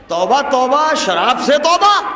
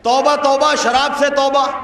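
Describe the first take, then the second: First: It is said with a marked, expressive tone. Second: It is recited in a plain, neutral tone.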